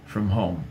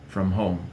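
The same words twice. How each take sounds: Both takes have the same delivery.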